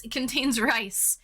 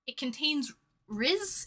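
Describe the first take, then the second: First: Said in the usual way. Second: Riz said like whiz, slowly; French word riz. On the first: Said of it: "but that's how you say". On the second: Shown as a demonstration. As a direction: say riz with a z ending, drawn out. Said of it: "that's how the French call it".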